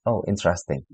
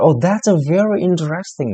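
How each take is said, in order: First: Flat interesting. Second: High, louder, lively "very interesting"; genuinely impressed. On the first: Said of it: "satu kata interesting". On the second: Teacher showing real praise with lively intonation. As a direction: sound truly delighted by the talk. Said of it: "intonasi, ... ekspresi wajah yang bagus". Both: Shown as a demonstration.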